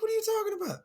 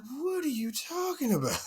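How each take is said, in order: First: Squeaky falsetto disbelief, way up high. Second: High confused squeak. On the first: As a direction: push the disbelief even higher. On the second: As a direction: voice jumps up high in mock disbelief. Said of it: "I'm like". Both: Retold or imitated.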